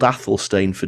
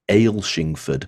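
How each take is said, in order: First: Every syllable follows the spelling closely. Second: The start is shortened to sound like Ailshing. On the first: "if you pronounce it the English way" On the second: "If you live in Scotland, people will pronounce it dif- differently"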